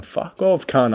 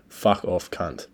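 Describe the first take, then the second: First: Much higher, panicky mock yell; hammed-up panicked yell. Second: Said in the usual way. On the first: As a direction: yell it like you are going under. Retold yell while nearly drowning.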